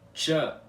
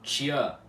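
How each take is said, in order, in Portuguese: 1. Não há semivogal y depois do som de ch. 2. Há uma semivogal y depois do som de ch. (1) "a pronúncia da letra Tché em balborano é Tchã" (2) "e não Tchã, e é sem esse I semivocálico"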